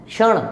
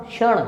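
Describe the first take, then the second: Both takes have the same delivery.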